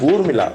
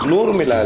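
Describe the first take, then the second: First: The name begins with a vowel sound. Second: The name begins with an n sound. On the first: The speaker calls it right. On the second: The speaker calls it wrong. "நூறுமிளா இல்ல"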